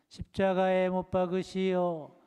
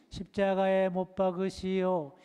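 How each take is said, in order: No difference in how they are said.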